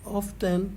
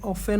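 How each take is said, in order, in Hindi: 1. बीच में t की आवाज़ बोली जाती है। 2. बीच में t की कोई आवाज़ नहीं बोली जाती। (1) "सॉरी ये ऑफेन होगा" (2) "यहाँ टी साइलेंट है"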